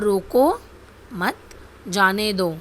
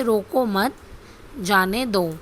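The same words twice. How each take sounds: First: रोको set apart with a clear pause before मत जाने दो; pause after रोको. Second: रोको मत said together, pause, then जाने दो; pause after मत. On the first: Teacher showing a comma's effect, pause after रोको. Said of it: "रोको के बाद विराम चिन्ह लगाया". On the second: Teacher showing the opposite meaning, pause after मत. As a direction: run रोको मत together and break before जाने दो. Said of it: "रोको मत के बाद अल्प विराम". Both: Shown as a demonstration.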